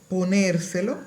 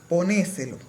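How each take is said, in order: First: The r in the stressed syllable is pronounced. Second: The r in the stressed syllable is dropped. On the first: "En la palabra" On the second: "desaparición de la R final en sílaba tónica"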